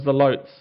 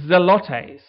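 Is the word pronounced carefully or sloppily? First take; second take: sloppily; carefully. First: The word is pronounced sloppily. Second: The word is pronounced carefully. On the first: The speaker calls it wrong. "if you want to pronounce it poorly" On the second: The speaker calls it right. "the Greek word zelotes"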